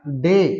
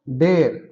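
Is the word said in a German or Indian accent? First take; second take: German; Indian. First: It is said in a German accent. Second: It is said in an Indian accent.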